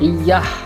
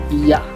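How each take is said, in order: First: The word ends with an added h sound. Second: The word ends on a plain vowel. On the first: The speaker calls it wrong. "penambahan bunyi huruf Y dalam kata iyah" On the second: The speaker calls it right. "Bentuk yang benar sesuai kaidah bahasa Indonesia adalah iya tanpa H"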